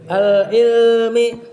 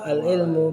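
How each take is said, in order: First: The word ends with an i vowel. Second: The word ends with a u vowel. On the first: The word is an appositive in the genitive case. "al ilmi badal" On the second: The word is the predicate of an omitted subject. "Kalau itu baca ilmu khobar dari mubtada yang dihapus"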